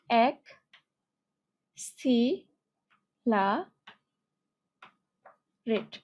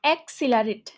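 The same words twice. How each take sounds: First: "অ্যাক্সিলারেট" very slow, ak, si, la, rate, long gaps; split into syllables. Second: Said in the usual way. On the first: Shown as a demonstration. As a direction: dictate "অ্যাক্সিলারেট" syllable by syllable as if writing it. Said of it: "তুমি যখন এভাবে ভাগ করে নেবা". ("অ্যাক্সিলারেট" খুব ধীরে, অ্যাক-সি-লা-রেট ভেঙে) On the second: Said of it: "অ্যাক্সিলারেট অনেক বড়ভাবে বললে".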